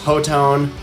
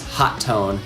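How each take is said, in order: First: It is said as one blended word. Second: It is said as two words, hot and tone. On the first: The speaker calls it wrong. "for the longest time, thought it was" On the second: The speaker calls it right. "that is how you say the name"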